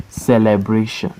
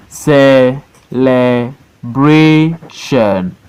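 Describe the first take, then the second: First: Said in the usual way. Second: CE, LE, BRA, TION, slow and separate; Celebration in four long beats with pauses; syllable by syllable. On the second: Shown as a demonstration. Teacher showing four syllable words, Celebration broken as CE-LE-BRA-TION. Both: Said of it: "Four syllable word".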